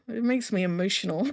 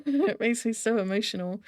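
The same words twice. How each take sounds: First: Said in the usual way. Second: Says it through a laugh, a touch emphatic; laughing admission. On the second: Real, not acted. Reacting to a sad scene, admits she is moved with a laugh. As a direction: laugh it off while owning the feeling.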